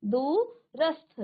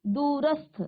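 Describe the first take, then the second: First: दूरस्थ drawn out very slowly, half स then थ clearly joined; slow spelled-out pronunciation. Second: Said in the usual way. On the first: Shown as a demonstration. Teacher showing the class the स्थ sound, very slow. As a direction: stretch दूरस्थ so the स्थ cluster is heard. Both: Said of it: "आधा स और थ का उच्चारण".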